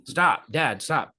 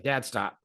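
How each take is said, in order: First: Imitating an irritated son, firmer now; growing annoyance. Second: Son's first, understated objection; mild protest. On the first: Son to dad who keeps throwing paper balls, growing annoyance. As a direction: push the retold protest a little harder. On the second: Retold or imitated. Son to dad pelting him with paper balls, mild protest. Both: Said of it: "he's getting angry".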